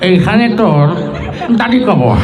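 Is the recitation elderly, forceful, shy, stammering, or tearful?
elderly. It is recited in an old man's voice, mouth full. The reciter is an old farmer chewing betel. "মুরব্বী মানুষ, বুড়া চাষা ... পান খেতে খেতে"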